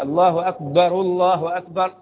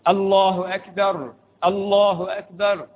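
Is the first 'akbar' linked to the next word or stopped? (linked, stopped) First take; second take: linked; stopped. First: The first akbar ends in a vowel, linking onward. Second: The first akbar ends on a stopped consonant. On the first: "بضم الراء الأولى" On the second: "بتسكين"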